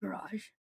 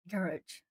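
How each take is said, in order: First: Soft "Garage" as guh-RAHZH; American pronunciation. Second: Soft "Garage" as GARR-ij; own usual pronunciation. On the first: Streamer comparing accents, soft American "Garage" as guh-RAHZH. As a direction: say "Garage" quietly, second syllable stressed, zh ending. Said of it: "American English sounds like garage". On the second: Streamer comparing with American, soft "Garage" as GARR-ij. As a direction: say "Garage" quietly, first syllable stressed, -ij ending. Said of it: "I probably sounded like garage". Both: Shown as a demonstration.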